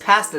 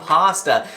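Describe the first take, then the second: First: The word is said with a Canadian pronunciation. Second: The word is said with a non-Canadian pronunciation. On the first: This is how the speaker's own region says it. "he says pasta ... this is just how we say it in Canada" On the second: This is how commenters expect it said. "not pasta"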